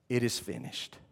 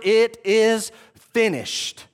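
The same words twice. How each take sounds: First: It is said as a relieved sigh. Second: It is said as a victorious shout.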